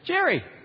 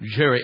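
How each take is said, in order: First: It is said in an ordinary, everyday voice. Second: It is said in a deep, booming voice. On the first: "what if his voice is more like mine?" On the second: "instead of"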